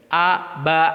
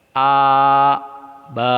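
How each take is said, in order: First: Short crisp A, ba; one beat per syllable; short correct syllables. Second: Long stretched A and ba; stretched syllables, marked wrong; wrongly drawn-out syllables. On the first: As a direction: demo of the right short reading. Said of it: "itu betul". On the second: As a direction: demo of the wrong long reading. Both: Shown as a demonstration.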